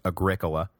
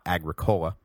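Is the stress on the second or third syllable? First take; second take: second; third. First: The stress is on the second syllable. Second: The stress is on the third syllable. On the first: The speaker calls it right. "thank you for the pronunciation correction, it is Agricola" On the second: The speaker calls it wrong. "not Agricola, which, yeah, I agree, sounds like some kind of terrible hippie soda"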